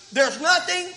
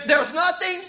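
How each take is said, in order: Both takes have the same delivery.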